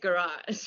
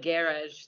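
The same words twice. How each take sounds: First: Garage is said with an American pronunciation. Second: Garage is said with a British pronunciation. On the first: "I felt American have to be like, hey, it's garage" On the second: "also has a British accent"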